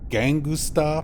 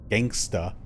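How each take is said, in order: First: An extra 'u' vowel is inserted before 'sta'. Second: No extra vowel is inserted before 'sta'.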